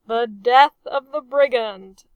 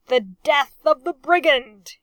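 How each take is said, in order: First: Loud but dutiful echo; obedient reply. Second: Loud, sneering toast; sneering cry. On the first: Officers dutifully echoing the captain's toast. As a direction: answer by rote, as ordered. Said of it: "they replied obediently". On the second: Captain crying a sneering toast against his enemy. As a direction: spit it out with contempt, lip curled. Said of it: "he cried, his aristocratic lip curled in a sneer". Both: A narrator's reading.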